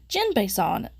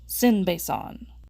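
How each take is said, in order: First: The name starts with a J sound. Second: The name starts with an S sound. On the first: The speaker calls it right. "this little guy's name is Jinbei-san" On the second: The speaker calls it wrong. "not Sin-Bei-san"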